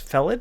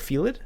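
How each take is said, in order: First: The first vowel sounds like the one in 'fell'. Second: The first vowel sounds like the one in 'feline'. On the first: This is the habitual way of saying it. The speaker calls it wrong. "for some reason I always say felid off the top" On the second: This is the likely correct way of saying it. The speaker calls it right. "I think feline, felid"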